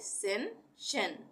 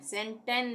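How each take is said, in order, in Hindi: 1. बीच का व्यंजन sh की ध्वनि है। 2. बीच का व्यंजन साधारण t की ध्वनि है। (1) "उच्चारण श का होगा" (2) "सेंटेन नहीं पढ़ेंगे"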